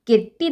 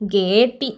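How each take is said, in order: First: The e vowel is short. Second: The e vowel is long. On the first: The speaker calls it right. "குரில் அப்படிங்கும்போது கெட்டி தான் வரும்" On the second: The speaker calls it wrong. "கேட்டி அப்படின்னு வராது"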